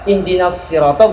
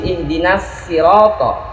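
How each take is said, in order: First: The s of sirat is a heavy emphatic s. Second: The s of sirat is a plain light s. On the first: "bunyi shad" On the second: "shad dengan bunyi sin"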